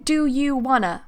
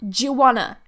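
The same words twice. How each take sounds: First: The d and y sounds stay separate. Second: The d and y merge into a j sound. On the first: The speaker calls it wrong. "I'm not saying" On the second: The speaker calls it right. "I'm saying do you wanna. J"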